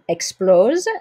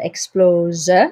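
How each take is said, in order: First: The final e is silent. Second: The final e is pronounced. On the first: This is ordinary speech. "if I were just saying the world is exploding" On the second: This fits the rhythm of the song. "because you have this song with a certain rhythm"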